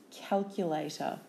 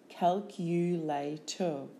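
First: Said in the usual way. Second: Slow "Calculator" as cal, cu, la, tor; syllable by syllable. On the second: Shown as a demonstration. Teacher giving syllables for spelling, Calculator slowly in beats. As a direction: break Calculator into four separate beats.

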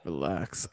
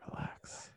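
First: Said in the usual way. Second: "Relax" whispered, very soft and breathy; mock ASMR whisper. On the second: Shown as a demonstration. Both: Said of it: "A S M R".

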